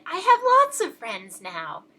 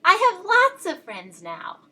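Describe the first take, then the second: First: Said in the usual way. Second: Louder and higher, bursting with joy; very loudly. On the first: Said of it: "so happy that he said it again". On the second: A narrator's reading. Little Beaver happily calls his news across the pond, very loud. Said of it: "very loudly".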